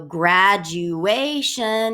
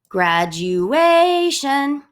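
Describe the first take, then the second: First: Both the first and third syllables are stressed. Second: Only the third syllable carries the stress. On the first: "so two syllables get an emphasis" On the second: "you definitely emphasize the A"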